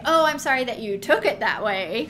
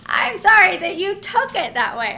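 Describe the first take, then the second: First: Flip, dismissive fake apology; mock non-apology. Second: Higher, louder, exaggerated mock sorry; hammed-up non-apology. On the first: Mocking how people dodge a real apology, in a flip non-apology. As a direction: toss off a hollow sorry, lightly mocking. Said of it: "And we might say". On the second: Worked up about non-apologies, mocking them higher and louder. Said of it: "let me go off on that".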